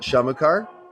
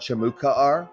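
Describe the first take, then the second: First: The name is said the casual local way. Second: The name is said carefully, with every sound. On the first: This is how a resident would say it. "a Sharn native would call it Shamukar" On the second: This is the formally correct pronunciation. "somebody correctly pronouncing it would call it Shamukar"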